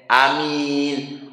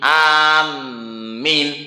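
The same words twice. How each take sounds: First: The m is short and light, not doubled. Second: The m is held long and doubled. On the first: The speaker calls it right. "Hamzanya dibaca qasri, pendek" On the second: The speaker calls it wrong. "kalau mimnya dibaca tasdid, yaitu"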